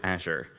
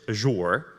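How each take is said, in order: First: It is said in an American accent. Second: It is said in a British accent.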